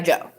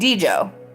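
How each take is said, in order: First: The name starts without a D sound. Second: The name starts with a D sound. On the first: The speaker calls it right. "he goes by [name], even though it has a D in front of it" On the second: The speaker calls it wrong. "I call him [name]. But that's not what it is"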